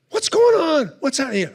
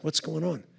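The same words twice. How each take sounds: First: Much higher, alarmed cries; startled panic. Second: Muttering confusion, much softer; puzzled murmur in the audience; hushed puzzled. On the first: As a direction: shout out, lost in the smoke. Audience panics in smoke. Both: Retold or imitated.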